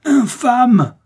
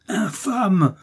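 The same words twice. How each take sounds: First: Second « Infâme! » hurlé beaucoup plus haut et fort; « Infâme! » lâché à pleine voix, au sommet de la rage; hurlement furieux. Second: Premier « Infâme! » crié haut et aigu; hurlement. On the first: (Milady hurle « Infâme! » plus fort encore, hors d'elle) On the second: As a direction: crie « Infâme! » d'une voix changée, aiguë. (Milady hurle « Infâme! » contre d'Artagnan, voix aiguë) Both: A narrator's reading. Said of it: "hurlait Milady".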